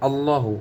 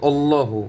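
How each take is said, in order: First: "আল্লাহু" opening on a plain a, al-lahu; mistaken initial a. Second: "আল্লাহু" opening with a w glide, wallahu; correct initial w. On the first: Teacher shows the common slip, "আল্লাহু" starting with bare a. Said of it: "আল্লাহু বলে ফেলি". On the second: Teacher corrects learners, "আল্লাহু" begun with w: wallahu. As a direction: say "আল্লাহু" as wal-laa-hu. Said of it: "এখন হবে আল্লাহু". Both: Shown as a demonstration.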